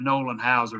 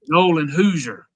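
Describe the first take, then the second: First: The surname is said like Hauser. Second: The surname is said like Hoosier. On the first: This is how the speaker had been saying it. "I've been saying it" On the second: This is how the coach pronounces it. "Dabo was pronouncing it Nolan Hoosier today"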